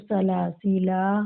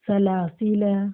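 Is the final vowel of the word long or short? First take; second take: long; short. First: The final vowel is drawn out long. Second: The final vowel is short and clipped. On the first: "एक अलिफ के बराबर खींच के भी पढ़ सकते हैं" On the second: "एक हरकत एक जबर के बराबर पढ़ सकते हैं"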